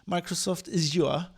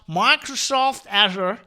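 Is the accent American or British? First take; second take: British; American. First: It is said in a British accent. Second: It is said in an American accent.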